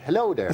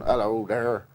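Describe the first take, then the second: First: It is said in an Irish accent. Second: It is said in a West Country accent.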